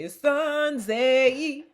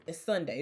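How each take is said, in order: First: Slow, higher put-on little voice; little Klumps voice. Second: Said in the usual way. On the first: Imitating a Klumps character, slow and higher. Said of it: "he used to talk like that".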